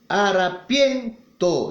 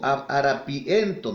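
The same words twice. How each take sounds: First: The vowels i and e share one syllable. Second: The vowels i and e are in separate syllables. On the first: The speaker calls it right. "digo una sola" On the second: The speaker calls it wrong. "Yo no digo harapiento"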